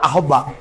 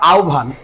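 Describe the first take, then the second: First: The word is said the common everyday way. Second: The word is said the standard careful way. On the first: This is how many people habitually say it. The speaker calls it wrong. "অনেকে উচ্চারণ করে" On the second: This is the correct standard pronunciation. The speaker calls it right. "শুদ্ধভাবে উচ্চারণ করতে গেলে তোমাকে বলতে হবে"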